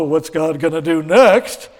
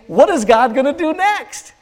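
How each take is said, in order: First: It sounds worried and dreading. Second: It sounds eager and expectant. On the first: Something bad is expected to come. The speaker calls it wrong. "Instead of saying" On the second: Something good is expected to come. The speaker calls it right.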